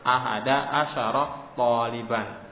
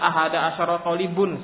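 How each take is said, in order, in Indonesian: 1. Kata terakhir diakhiri dengan -an. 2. Kata terakhir diakhiri dengan -un. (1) "Wajib dibaca dengan fathah"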